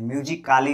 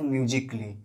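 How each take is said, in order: First: "म्यूजिकली" with the silent a sounded, myu-zi-kaa-lee; wrong pronunciation. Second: "म्यूजिकली" with the a dropped, myu-zik-lee; three syllables in "म्यूजिकली", ending -klee; correct silent a. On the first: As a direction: sound out the a in "म्यूजिकली" as a full extra syllable. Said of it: "नहीं बोलते हैं". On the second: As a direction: run k straight into l in "म्यूजिकली". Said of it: "म्यूजिकली नहीं बोलते हैं". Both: Shown as a demonstration.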